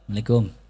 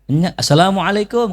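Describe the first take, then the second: First: The greeting is said quietly and unclearly. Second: The greeting is said loudly and clearly.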